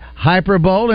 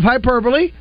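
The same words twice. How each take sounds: First: It is said as three syllables, like hyper-bowl. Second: It is said as four syllables, ending in -lee. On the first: The speaker calls it wrong. "saying hyperbole" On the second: The speaker calls it right. "instead of hyperbole"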